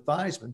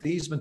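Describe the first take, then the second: First: The name rhymes with Heisman. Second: The name does not rhyme with Heisman. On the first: This is the changed pronunciation. "to rhyme with Heisman" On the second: This is the family's original pronunciation. "changing the pronunciation of your last name from Theismann"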